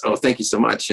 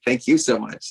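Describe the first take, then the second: First: Said in the usual way. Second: YOU stressed, falling after it. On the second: Retold or imitated. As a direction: hit the word "you" to return the thanks. Turning the thanks back to her.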